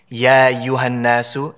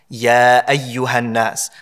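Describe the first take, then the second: First: The glottal stop is rushed over and skipped. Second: The glottal stop is clearly articulated. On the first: The speaker calls it wrong. "They kind of just rush over the Hamza" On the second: The speaker calls it right. "Notice how I'm clearly articulating it"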